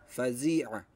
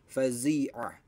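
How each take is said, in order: No difference in how they are said.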